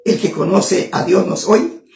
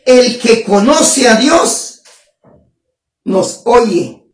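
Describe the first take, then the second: First: "El que conoce a Dios nos oye" as a softer, lower question. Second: Said in the usual way. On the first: Real, not acted. Preacher asking whether the verse is really true, questioning. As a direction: lift the end on "oye" in quiet doubt. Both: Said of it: "Pero yo te pregunto".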